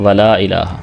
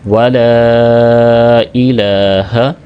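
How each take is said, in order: First: The vowel after the l is cut short. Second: The vowel after the l is held long. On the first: The speaker calls it wrong. "इसको बहुत छोटा करके पढ़ देते हैं" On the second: The speaker calls it right. "कम अज़ कम इसको तीन सेकंड तक तो लंबा ज़रूर करना चाहिए"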